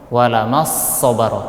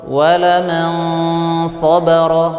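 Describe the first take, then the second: First: The n merges into a doubled s sound. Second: The n is hidden with a nasal hum. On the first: The speaker calls it wrong. "itu bacaannya dengan idgham" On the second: The speaker calls it right. "perhatikan suara dengungan yang ada di hidung"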